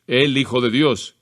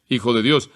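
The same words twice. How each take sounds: First: "el" spelled out slowly before Hijo; slow emphatic "el Hijo de Dios"; slow article demo. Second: Said in the usual way. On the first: Shown as a demonstration. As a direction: give "el" its own weight, slow. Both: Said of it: "no tiene artículos".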